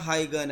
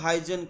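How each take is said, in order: First: The middle consonant is a hard g sound. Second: The middle consonant is a soft j sound. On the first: The speaker calls it right. "Originally ये क्रिस्टियान हाइगन है" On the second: The speaker calls it wrong. "अक्सर स्टूडेंट इसे गलत प्रोनाउंस कर देते हैं"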